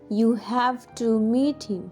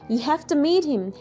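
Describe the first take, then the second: First: 'Have to' is said fully with a v sound. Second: 'Have to' is reduced to 'hefta' with an f sound. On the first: "I'm not saying you have to meet him" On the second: "I'm saying you have to meet him. Hefta"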